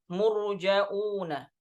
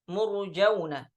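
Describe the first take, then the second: First: A glottal stop comes before the ending vowel. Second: The vowels run together with no glottal stop. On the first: "Jadi ada tambahan huruf hamzah" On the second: "di riwayat Hafs"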